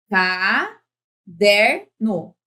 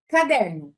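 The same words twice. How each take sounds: First: "Caderno" lentíssimo, com "DER" forte e esticado; sílaba por sílaba. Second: Said in the usual way. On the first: Shown as a demonstration. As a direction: separe "Ca-der-no", destacando o "der". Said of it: "Essa é a tônica". ("Caderno" dito em sílabas bem pausadas) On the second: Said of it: "É assim".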